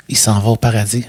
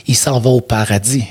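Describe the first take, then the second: No difference in how they are said.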